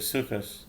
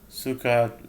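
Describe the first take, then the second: First: The word ends with an s sound. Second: The word ends with a t sound. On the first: "If you're Litvish, you'll say Sukas"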